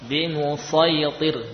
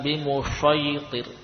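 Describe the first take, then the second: First: The key consonant is a heavy emphatic s. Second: The key consonant is an sh sound. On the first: The speaker calls it right. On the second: The speaker calls it wrong.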